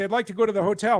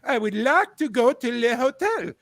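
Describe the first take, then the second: First: It is said in a plain English accent. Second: It is said in a put-on French accent. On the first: The driver does not understand. The speaker calls it wrong. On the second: The driver understands. The speaker calls it right.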